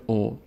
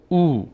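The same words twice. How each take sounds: First: "او" said as a short o; short vowel. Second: "او" said as a long oo; long vowel. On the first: Teacher showing the old short sound, short "او" as o. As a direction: say "او" as a brief o sound. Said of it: "دیگه الان نمیشه او". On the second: Teacher showing the strengthened sound, long "او" as oo. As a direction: stretch "او" into a held oo. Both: Shown as a demonstration.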